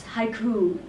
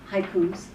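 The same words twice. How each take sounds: First: "haiku" with no s, as a plural; correct pronunciation. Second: "haikus" with an added final s; "haikus" as the mistaken plural form; wrong plural pronunciation. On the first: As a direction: say "haiku" with no final s. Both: Shown as a demonstration. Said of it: "and it's haiku, not haikus".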